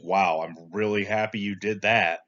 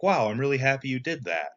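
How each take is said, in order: First: It sounds sarcastic, contradicting the happy words. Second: It sounds genuinely pleased and sincere. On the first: The speaker is not actually happy about it. "Or it can contradict" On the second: The speaker truly is happy about it. "The nonverbal matches the verbal"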